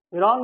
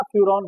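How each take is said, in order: First: फ्यूरॉन said as "firon", without the y-glide; mispronounced फ्यूरॉन. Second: फ्यूरॉन with a clear "fyu" opening; correct pronunciation. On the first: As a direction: say फ्यूरॉन wrongly as "fee-ron". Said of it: "फ्यूरॉन नहीं बोलना". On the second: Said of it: "फ्यूरॉन बोलना". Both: Shown as a demonstration.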